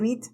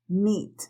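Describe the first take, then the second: First: The vowel is short and plain. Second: The vowel is long, said with spread lips. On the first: The speaker calls it wrong. "Si tú dices simplemente meet, no te entienden" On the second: The speaker calls it right. "sonríete y haz la I larga"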